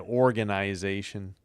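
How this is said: It is said in a Canadian accent.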